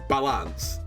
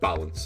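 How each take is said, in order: First: The word is pronounced in an unusual, non-English way. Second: The word is pronounced in the normal English way.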